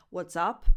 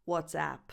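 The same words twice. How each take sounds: First: "What's up" ending in the vowel of "cup"; English expression. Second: "WhatsApp" ending in the cat vowel; app name pronunciation. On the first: Teacher contrasting question and app name, "up" with "uh". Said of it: "the expression". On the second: Teacher distinguishing app from the question, "app" with cat vowel. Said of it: "and the name of the app". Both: Shown as a demonstration.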